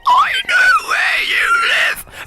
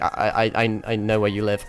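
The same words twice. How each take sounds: First: High, slow, shrieking creature shout; creepy monster voice. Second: Said in the usual way. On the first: Shown as a demonstration. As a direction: scream it like a monster. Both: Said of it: "I can try and say, like, something really creepy".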